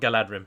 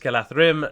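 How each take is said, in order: First: The middle consonant is a d sound. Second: The middle consonant is a th sound. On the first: The speaker calls it wrong. "not Galadrim" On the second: The speaker calls it right. "if you ever want to pronounce that rightly, it's Galathrim"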